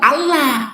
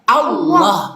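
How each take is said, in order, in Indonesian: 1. Bunyi l-nya tipis dan ringan. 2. Bunyi l-nya tebal dan berat. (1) "bukan Allah" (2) "maka dibaca dia tebal"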